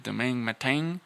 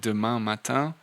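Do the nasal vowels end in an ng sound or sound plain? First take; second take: ng sound; plain. First: The nasal vowels end in an added ng sound. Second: The nasal vowels sound plain, with no ng. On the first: "they say" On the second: "instead of"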